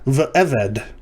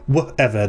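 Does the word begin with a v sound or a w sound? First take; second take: v; w. First: The word begins with a v sound. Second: The word begins with a w sound.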